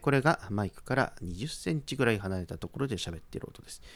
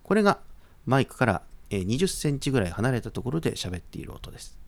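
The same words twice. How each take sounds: First: The distant voice is played at normal, quieter volume. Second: The distant voice is played back with raised volume.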